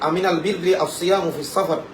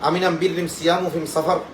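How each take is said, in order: First: The article is pronounced 'al' throughout. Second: The article is pronounced 'am' throughout. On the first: It is the standard literary form. "এটার যে শুদ্ধ আরবি সেটা এভাবে ছিল" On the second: It is the questioner's regional dialect. "তার আঞ্চলিক ভাষায় প্রশ্ন করেছেন"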